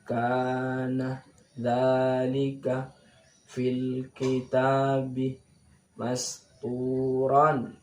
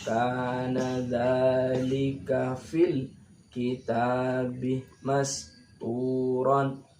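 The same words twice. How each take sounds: First: The phrase is read in pieces with breaks. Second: The phrase is read connected in one breath. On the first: "Ini boleh seperti ini" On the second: "Apalagi dibaca langsung sambung"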